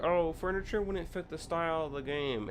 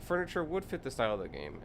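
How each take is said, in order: First: Higher, sing-song mock of a dismissive commenter; mocking quote. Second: Said in the usual way. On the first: Mimicking forum users dismissing furniture, snooty mock voice. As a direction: parrot their excuse in a snooty voice. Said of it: "they were like". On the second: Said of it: "And it's like".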